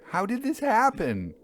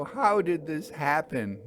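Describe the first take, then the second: First: Rising distress. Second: Higher, pleading distress; distressed question. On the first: Narrator demands of railwaymen, nearly crying out. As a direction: push the question up in horror. Repeated, more urgent. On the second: Narrator asks railwaymen, stunned and distressed. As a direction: ask in horrified disbelief. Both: Acted.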